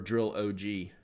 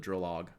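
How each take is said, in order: First: The ending is said as letters O G. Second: The ending is said as the word log.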